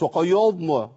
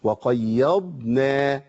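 First: وقيضنا with a heavy ya and dad; وقيضنا wrongly heavy. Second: وقيضنا very slow with a clear light ya and a marked dad; وقيضنا with a distinct sukun on the dad. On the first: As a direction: say وقيضنا with a dark ya. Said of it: "ما تنفعش أفخم الياء والضاد". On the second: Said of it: "محتاج أبين الضاد". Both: Shown as a demonstration.

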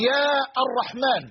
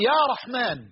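First: يا الرحمن with a separate "ar" after a long yaa; wrong article kept. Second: يا رحمن joined as "yaa rahmaan"; article dropped. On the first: Teacher showing an improper vocative, article sounded in يا الرحمن. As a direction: slowly sound يا, then "ar-rahmaan". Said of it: "لا يليق لغة". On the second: Teacher giving the correct vocative, smooth يا رحمن without "ar". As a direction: go straight from يا into رحمن. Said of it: "بل تقول". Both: Shown as a demonstration.

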